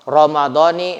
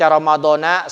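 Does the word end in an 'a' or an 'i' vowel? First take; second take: i; a. First: The final syllable ends with an i vowel. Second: The final syllable ends with an a vowel. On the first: The speaker calls it right. "nunnya dibaca kasroh" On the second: The speaker calls it wrong. "Kalau dibaca Ramadana sah-sah saja, hanya saja menurut aturan nahu salah"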